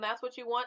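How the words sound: The tone is sincere and supportive. The choice is genuinely supported. The speaker calls it right.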